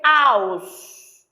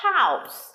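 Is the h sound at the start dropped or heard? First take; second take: dropped; heard. First: The word starts without an h sound. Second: The word starts with a breathy h sound. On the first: The speaker calls it wrong. "You don't say house" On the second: The speaker calls it right. "You say what? House"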